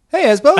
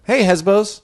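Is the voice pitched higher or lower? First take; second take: higher; lower. First: It is said in a higher pitch. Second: It is said in a lower, natural pitch.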